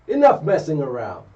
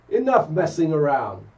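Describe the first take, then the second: No difference in how they are said.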